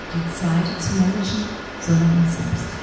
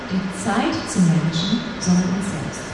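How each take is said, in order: The two takes are said the same way.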